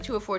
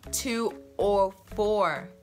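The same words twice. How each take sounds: First: It is said fast. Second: It is said slowly.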